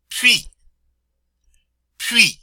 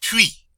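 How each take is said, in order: First: Puis sung out high and loud; high French model. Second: Puis again high; high French repeat. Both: Shown as a demonstration. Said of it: "I'll say that again".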